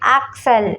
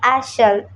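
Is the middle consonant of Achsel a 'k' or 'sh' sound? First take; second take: k; sh. First: The middle consonant is a hard 'k' sound. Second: The middle consonant is a soft 'sh' sound. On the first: "കെന്നും ഷൂന്നും C H നമ്മൾ പ്രൊനൗൺസ് ചെയ്യും" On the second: "കെന്നും ഷൂന്നും C H നമ്മൾ പ്രൊനൗൺസ് ചെയ്യും"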